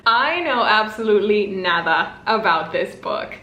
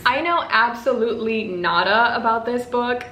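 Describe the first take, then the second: First: Said in the usual way. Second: Slipped into an English accent; light, unplanned English accent. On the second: Real, not acted. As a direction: say it like a Brit by accident. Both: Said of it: "Why did I say that with an English accent?".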